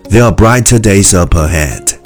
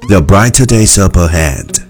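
The two takes are said the same way.

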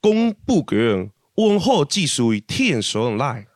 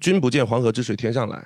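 First: It is said in Fuzhou dialect. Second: It is said in standard Mandarin.

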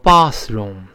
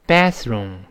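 First: The first vowel is a broad open 'ah'. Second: The first vowel is a flat front 'a'. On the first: "英国人呢把这个卫生间读成bathroom，它发啊" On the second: "美国呢这个啊多数变成a，所以美音中这么读bathroom"

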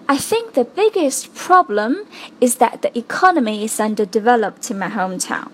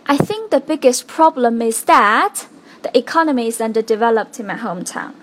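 First: The word economy is strongly stressed. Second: The word that is strongly stressed. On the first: The speaker calls it right. "因为我们把这个is that 快速的带过去了，就导致我们可以把后面重要的这个economy 重读出来了。" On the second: The speaker calls it wrong. "一个that，一个so that 被做了特别重读的一个处理。"

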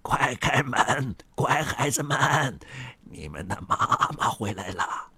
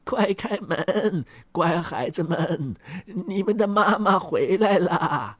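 First: It is said in a rough, coarse voice. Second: It is said in a thin, finer voice.

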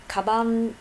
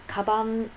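The two takes are said the same way.

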